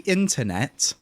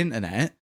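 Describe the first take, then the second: First: Both T sounds in the word are clearly pronounced. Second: Both T sounds in the word are dropped. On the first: The speaker calls it right. "there you go, you got two" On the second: The speaker calls it wrong. "you didn't pronounce either of them"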